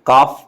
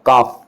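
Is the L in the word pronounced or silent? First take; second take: silent; silent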